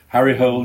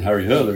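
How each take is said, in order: First: The surname is said like the English word hole. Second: The surname is said with two syllables, like hurler. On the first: "You went for the anglicised version" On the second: "Although it's Jo Nesbo and Harry Hurler"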